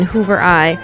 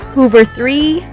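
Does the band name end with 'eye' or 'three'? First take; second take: eye; three. First: The name ends with the sound 'eye'. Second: The name ends with the word 'three'. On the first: The speaker calls it wrong. "I was always saying Hoover I" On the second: The speaker calls it right. "I did not know how to pronounce that until today"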